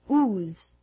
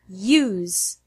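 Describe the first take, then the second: First: The word starts directly with an oo sound. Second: A Y sound comes before the oo sound. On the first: The speaker calls it wrong. "don't pronounce it ooze" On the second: The speaker calls it right. "The correct way is use"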